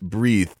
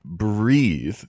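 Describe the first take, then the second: First: The word is said sharply with crisp consonants. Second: The word is said smoothly and legato. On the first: "You articulate every syllable" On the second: "a word that could sound very smooth"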